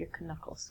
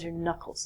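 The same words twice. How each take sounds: First: The K at the start is pronounced. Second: The K at the start is silent. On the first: The speaker calls it wrong. "not your knuckles" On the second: The speaker calls it right. "are called your knuckles"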